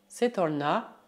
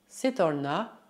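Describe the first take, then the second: The two takes are said the same way.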